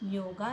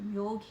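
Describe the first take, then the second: First: The word ends with an added a vowel. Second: The word ends on the g consonant. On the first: The speaker calls it wrong. "योगा नहीं" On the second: The speaker calls it right. "उसे योग ही pronounce करेंगे"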